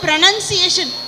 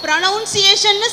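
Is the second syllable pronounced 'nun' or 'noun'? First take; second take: nun; noun. First: The second syllable sounds like 'nun'. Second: The second syllable sounds like 'noun'. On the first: The speaker calls it right. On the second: The speaker calls it wrong.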